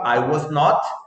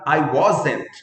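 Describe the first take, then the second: First: Not is said as a separate full word. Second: Not is reduced and joined onto was. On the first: "Forma longa" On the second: "Forma contraída"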